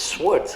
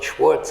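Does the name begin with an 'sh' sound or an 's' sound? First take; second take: s; sh. First: The name begins with an 's' sound. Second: The name begins with an 'sh' sound. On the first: The speaker calls it right. "it's Swartz" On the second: The speaker calls it wrong. "it's not Schwartz"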